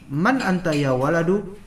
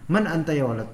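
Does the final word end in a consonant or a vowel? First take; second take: vowel; consonant. First: The last word ends with a short u vowel. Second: The last word ends on the consonant d. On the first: The speaker calls it wrong. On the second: The speaker calls it right. "Udah gitu aja"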